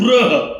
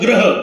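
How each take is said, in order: First: The first syllable has a 'ru' sound. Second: The first syllable has a plain 'ra' sound. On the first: The speaker calls it right. "इथं ऋषीचं रूचा उच्चार होणार इथं गृह" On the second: The speaker calls it wrong. "आपण म्हणतो ग्रह, ग्रह नाही"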